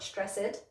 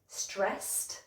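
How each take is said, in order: First: The ending adds an extra syllable. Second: The ending is a short T sound. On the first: The speaker calls it wrong. "not an extra syllable" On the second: The speaker calls it right. "it should be a T sound"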